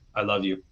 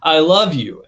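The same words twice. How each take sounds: First: It is said flatly, with little feeling. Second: It is said expressively, with warm feeling. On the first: The feeling does not really come across. The speaker calls it wrong. "just literally say the words" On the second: The feeling comes across. The speaker calls it right. "You can say it with your tone"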